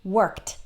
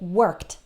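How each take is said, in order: The two takes are said the same way.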